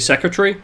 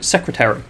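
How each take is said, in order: First: It is said in a relaxed regional accent. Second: Every syllable is said carefully and clearly. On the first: "in my um, native accent, I guess, it would be secretary" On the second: "I want to enunciate clearly for the captions"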